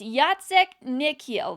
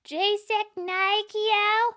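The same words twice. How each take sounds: First: It is said in a natural, unaffected voice. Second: It is said in a thin, reedy put-on voice. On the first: The name is said as it should be. The speaker calls it right. "it's Jacek Nykiel" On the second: Someone else is mispronouncing the name. The speaker calls it wrong. "With a reedy affect, he impersonated his second-grade teacher"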